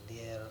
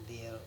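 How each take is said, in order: Both takes have the same delivery.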